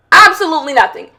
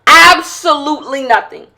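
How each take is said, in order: First: "Absolutely nothing" said briskly in one run; quick emphatic dismissal. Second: "Absolutely nothing" stretched out, leaning hard on "Absolutely". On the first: Podcaster on women's relationships, quick emphatic dismissal. First take, then repeated for emphasis. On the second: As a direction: draw out "Absolutely" syllable by syllable, then "nothing". Repeats it slower for emphasis. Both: Real, not acted.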